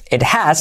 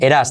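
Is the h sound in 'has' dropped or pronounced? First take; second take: pronounced; dropped. First: The h is pronounced and the t is separate. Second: The h is dropped and the t is a flap.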